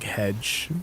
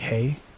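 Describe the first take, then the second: First: The word begins with a J sound. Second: The word begins with a Y sound. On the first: "It's like a J" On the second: "Is the J pronounced as a Y"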